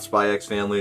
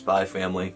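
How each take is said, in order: First: The letter X is spoken aloud between the words. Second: No X is spoken between the words. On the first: The speaker calls it wrong. "so it's not Spy X Family" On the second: The speaker calls it right. "you just don't pronounce it"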